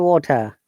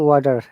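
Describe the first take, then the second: First: It is said in a New Zealand accent. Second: It is said in a Canadian accent. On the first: "New Zealand"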